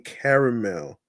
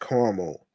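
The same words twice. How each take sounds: First: Caramel is said the New York way. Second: Caramel is said a non-New York way. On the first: The speaker calls it right. "In New York, we say caramel" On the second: The speaker calls it wrong. "not caramel"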